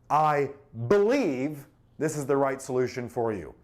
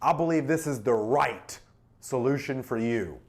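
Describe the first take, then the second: First: The word "I" carries the stress. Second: The word "right" carries the stress. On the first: The speaker personally holds this view. "Personal conviction?" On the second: The solution is a perfect fit. "Emphasizes perfect fit"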